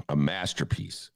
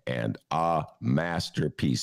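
First: Said in the usual way. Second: "a masterpiece" stretched out slowly, word by word; drawn-out emphasis. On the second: Real, not acted. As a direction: linger on each word of "a masterpiece". Repeats praise, drawn out.

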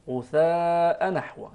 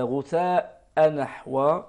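First: نحو with a single, light nun; غثاء نحو, nun not doubled; correct reading. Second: نحو with a doubled, stressed nun, slow; غثاء نحو, nun doubled; wrong reading. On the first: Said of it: "تقرأ مخففة بهذا الشكل". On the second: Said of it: "هذا غير صحيح". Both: Shown as a demonstration.

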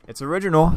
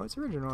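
First: Said in the usual way. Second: "original" in a high, half-joking voice; high, doubtful "original". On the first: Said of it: "It's original, I guess". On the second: Shown as a demonstration. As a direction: pitch "original" up high, unsure of it. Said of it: "I guess".

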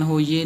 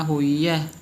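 First: ਹੋਈਏ ending in close e, ho-ee-ye; wrong e ending. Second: ਹੋਈ ਹੈ as ho-ee-ae, open ending. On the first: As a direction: finish ਹੋਈਏ on e as in "they". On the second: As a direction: finish ਹੋਈ ਹੈ on open e as in "bed". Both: Shown as a demonstration. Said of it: "ਹੋਈਏ ਨਹੀਂ ਕਹਿਣਾ".

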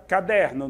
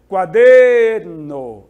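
First: Said in the usual way. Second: Booming, drawn-out middle syllable in "Quaderno"; stress on the DER of Quaderno. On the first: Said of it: "vamos imaginar aqui uma palavra". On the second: Shown as a demonstration. Teacher showing the strong Spanish syllable, "Quaderno" with DER held long. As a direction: stretch DER in "Quaderno" very long and much louder. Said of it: "Aquela que eu mais demoro enquanto falo".

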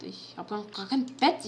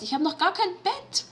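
First: Said in the usual way. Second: High panicked repeat; panicked realization. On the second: Real, not acted. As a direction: say it again in rising panic. Panicked repeat of same words.

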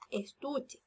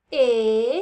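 First: Said in the usual way. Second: "Estuche" stretched into es... tu... che, loud, long vowels; "Estuche" counted slowly, one long syllable at a time. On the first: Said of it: "cuántas sílabas tiene la palabra". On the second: Shown as a demonstration. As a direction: draw out each syllable of "Estuche" with pauses between. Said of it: "Vamos a contar con los deditos".

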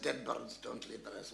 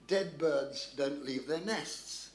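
First: Lightly voiced puzzled repeat, lower and softer; Stalin. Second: Slow, deliberate read-out; reading out a note. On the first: Stalin puzzles over Churchill's coded note, lightly voiced low repeat. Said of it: "And Stalin said". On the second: Acted. Storyteller reads Churchill's coded note aloud, slow and deliberate. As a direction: spell out each word slowly. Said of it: "written in Churchill's hand was the words".

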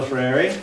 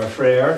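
First: "Freire" with a sounded final vowel; alternative pronunciation. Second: "Freire" with the ending cut short; alternative pronunciation. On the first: Lecturer naming a Brazilian educator, first pronunciation. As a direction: say "Freire" as a two-syllable name. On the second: Lecturer offering another way to say the educator's name, second pronunciation. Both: Shown as a demonstration. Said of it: "however you want to pronounce it".

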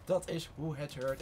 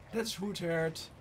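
First: "Dat is hoe het hoort" slow, each word separate; slow, deliberate repeat. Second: Said in the usual way. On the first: Real, not acted. Gamer approving of play, "Dat is hoe het hoort" slow and deliberate.

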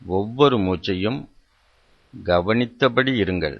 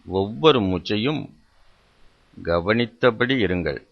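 The two takes are said the same way.

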